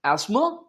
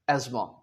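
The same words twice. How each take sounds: First: Asthma slowly with a plain s; British asthma. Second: Asthma as "ezma", low and soft with z; American asthma. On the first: Teacher contrasting British asthma. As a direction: draw out "asma" with s. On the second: Teacher contrasting American asthma. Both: Shown as a demonstration. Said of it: "British English और एक American English".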